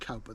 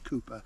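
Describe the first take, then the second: First: The first syllable rhymes with 'now'. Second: The first syllable rhymes with 'too'. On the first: It matches the spelling. The speaker calls it wrong. "I call him Richard Cowper" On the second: It is how the name is properly said. The speaker calls it right. "The correct pronunciation is Cooper"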